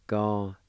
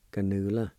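First: Ga-nu-la with each syllable held apart; syllable-by-syllable pronunciation. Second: Ganula run together as one word; joined-up pronunciation. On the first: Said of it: "is pronounced like this". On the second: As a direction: say Ganula connected, without gaps. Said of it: "Second one". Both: Shown as a demonstration.

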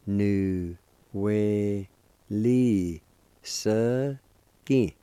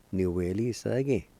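First: "Nu we li se gi" very slowly, each syllable separate; long held syllables in "Nu we li se gi"; syllable-by-syllable pronunciation. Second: "Nu we li se gi" run together as one word; connected teaching take of "Nu we li se gi"; fluent pronunciation. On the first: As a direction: sound out "Nu we li se gi" with a pause after every syllable. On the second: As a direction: say "Nu we li se gi" smoothly at speaking speed. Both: Shown as a demonstration. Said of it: "It's pronounced like this".

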